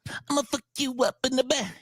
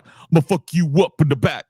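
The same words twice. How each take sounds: First: Spoken in a high, soft, babyish voice. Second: Spoken in a hard, tough, normal voice. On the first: "the baby voice" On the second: "instead of going like"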